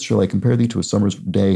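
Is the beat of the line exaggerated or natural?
natural. It is read with natural, even stress.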